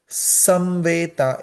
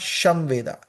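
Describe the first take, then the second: First: The word begins with an s sound. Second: The word begins with an sh sound. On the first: The speaker calls it right. "Here it is Samveda" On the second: The speaker calls it wrong. "It is not Shamveda"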